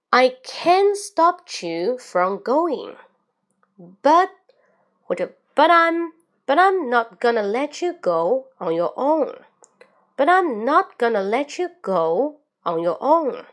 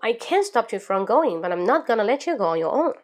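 First: The sentence is read at a medium pace. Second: The sentence is read at a fast pace. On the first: "第二遍，注意连读，语音语调像波浪一样。" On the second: "最后一遍深吸一口气最快"

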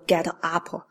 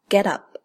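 First: The two words are said separately, not linked. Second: The two words are linked into one smooth unit. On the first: The speaker calls it wrong. "不要读作get up，那就很难听" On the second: The speaker calls it right. "把这两个词连起来读作get up"

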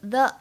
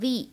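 First: The vowel is a short 'uh' sound. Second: The vowel is a long 'ee' sound.

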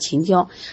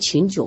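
First: The second syllable is pronounced jiao. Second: The second syllable is pronounced jiu. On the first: The speaker calls it right. "是秦椒" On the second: The speaker calls it wrong. "别念成秦九了"

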